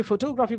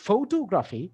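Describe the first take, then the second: First: photography with the weight on টো; stress on second syllable. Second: photography with the weight on opening ফ; stress on first syllable. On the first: Teacher showing students syllable stress, photography stressed on টো. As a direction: punch the টো in photography, not the first syllable. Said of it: "এখানে ঠোঁটাতে আমি importance দিচ্ছি". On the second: Teacher contrasting stress for students, photography stressed on opening ফ. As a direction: hit the first syllable of photography, ease off the rest. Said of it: "আমি প্রথম syllable stress দিচ্ছি". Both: Shown as a demonstration.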